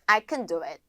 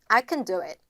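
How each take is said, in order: Both takes have the same delivery.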